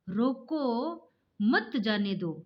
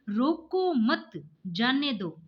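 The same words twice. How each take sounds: First: There is a pause right after रोको. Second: There is a pause right after मत.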